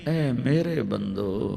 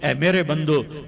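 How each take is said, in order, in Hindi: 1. यह गर्म, कोमल लहजे में कहा गया है। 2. यह सपाट, सादे लहजे में कहा गया है।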